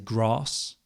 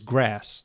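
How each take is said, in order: First: It is said in a southern English accent. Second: It is said in an American accent. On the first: "I say grass" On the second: "No, that's American"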